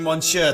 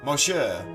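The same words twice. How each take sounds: First: The word is said with an N sound. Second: The word is said without an N sound. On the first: The speaker calls it wrong. "I've been saying Monsieur the entire time" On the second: The speaker calls it right. "I don't pronounce the N in it?"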